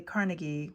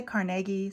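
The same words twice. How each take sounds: First: "Carnegie" as CAR-nuh-ghee, first syllable stressed. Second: "Carnegie" as car-NEG-ee, middle syllable stressed; stressed second syllable. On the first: Vlogger showing the other way people say "Carnegie", stress up front. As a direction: say "Carnegie" with a weak, reduced middle vowel. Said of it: "some people say Carnegie". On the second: Vlogger showing one way people say "Carnegie", stress on the middle. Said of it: "Some people say Carnegie". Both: Shown as a demonstration.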